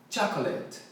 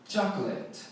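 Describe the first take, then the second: No difference in how they are said.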